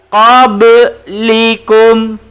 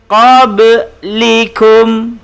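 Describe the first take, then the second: First: The b is released with a bouncing echo. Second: The same.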